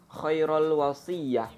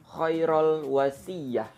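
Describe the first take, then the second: First: The first word ends in 'ul' before 'wasiyah'. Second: The same.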